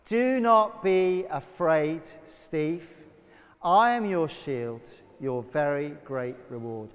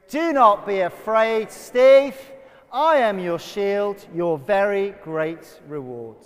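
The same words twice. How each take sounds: First: It is said in a calm, plain way. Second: It is said with more energy and verve.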